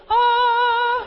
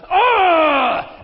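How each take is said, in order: First: Very high, loud sung "Ah"; operatic scream. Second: High, loud scream of exasperation; frustrated scream. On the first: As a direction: turn the scream into an opera note. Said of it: "It was like an opera event". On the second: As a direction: imitate an angry wife's wordless scream. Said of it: "she got so frustrated at me". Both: Retold or imitated.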